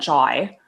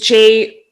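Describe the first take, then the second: First: The name is said with a foreign-sounding accent. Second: The name is said plainly, without an accent. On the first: The speaker calls it wrong. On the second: The speaker calls it right.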